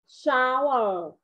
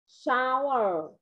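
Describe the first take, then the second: Both takes have the same delivery.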